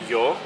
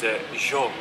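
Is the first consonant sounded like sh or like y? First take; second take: y; sh. First: The first sound is like y. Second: The first sound is like sh. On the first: This is the usual way of speaking. "usually it's yo" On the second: This is how it is said in Argentina. "and here it's yo, or sho"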